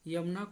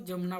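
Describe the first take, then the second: First: The word begins with a y sound. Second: The word begins with a j sound. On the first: This is the standard Hindi form. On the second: This is the Khortha dialect form.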